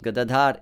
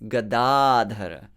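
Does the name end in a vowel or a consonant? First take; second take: consonant; vowel. First: The name ends on a consonant, no final vowel. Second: The name ends with a short final vowel. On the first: The speaker calls it wrong. "It's not Gadadhar" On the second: The speaker calls it right. "it's Gadadhara"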